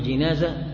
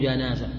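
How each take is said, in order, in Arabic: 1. المقطع الأول فيه الحركة 'i' (jinaza). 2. المقطع الأول فيه الحركة 'a' (janaza).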